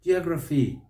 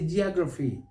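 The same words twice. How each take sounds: No difference in how they are said.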